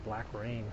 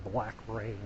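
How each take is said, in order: Both takes have the same delivery.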